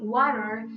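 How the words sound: The middle T sounds soft, close to an R. "in American English is closer to the sound of an R"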